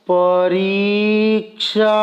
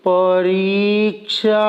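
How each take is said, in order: No difference in how they are said.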